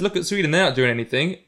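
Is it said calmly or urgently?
calmly. It is said in a calm, casual way.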